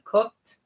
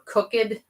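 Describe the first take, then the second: First: The ending is a plain 'd' sound. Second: The ending is an extra 'id' syllable. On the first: The speaker calls it right. "it's not id on the end, it's d" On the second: The speaker calls it wrong. "they'll say looked or cooked instead of"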